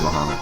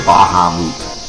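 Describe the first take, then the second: First: The name is said clipped, with fewer syllables. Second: The name is said with every syllable pronounced. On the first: "It's much easier to say Bahamut" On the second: "I know it's the correct way to say it"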